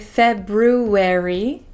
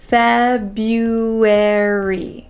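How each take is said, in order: First: The first R sound is pronounced. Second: The first R sound is dropped. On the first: The speaker calls it wrong. "we don't usually pronounce that first R. We don't say February" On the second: The speaker calls it right. "we say Febu, bu"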